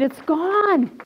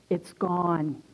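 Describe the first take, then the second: First: High, triumphant declaration; acted jubilant outburst; exultant exclamation. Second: Low, soft, stunned murmur; acted hushed disbelief; hushed realization. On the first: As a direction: proclaim it with raised pitch. Repeats realization emphatically, raised voice. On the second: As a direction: say it quietly, barely believing it. Stunned first realization of deliverance, retold.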